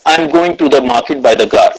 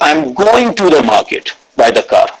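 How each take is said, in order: First: No word stands out; it sounds flat. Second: The word 'going' carries the stress. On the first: "said it or read it like a robot" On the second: "Second is"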